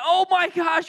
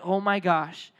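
First: High, alarmed mock outburst; high-pitched comic freak-out; acted panic. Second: Low, sinking mock dread; deflated comic alarm; acted subdued dread. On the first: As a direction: panic like a kid caught by mom. Friends panicking as mom bursts in. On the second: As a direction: say it low, as if doomed. Resigned dread under mom's look.

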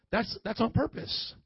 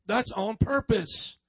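First: Said in the usual way. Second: "That's on purpose" slow and deliberate; slow, emphatic repeat of "on purpose"; slow emphasis. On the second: Real, not acted. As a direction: spell out "on purpose" slowly, weighting each word. Repeats point slowly for emphasis.

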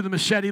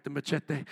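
First: Said in the usual way. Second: Low, soft machete with a Spanish-style "tay" ending; Spanish-style accent. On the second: Shown as a demonstration. Preacher showing how machete must be said, Spanish-style accent. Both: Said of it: "you gotta say with the accent".

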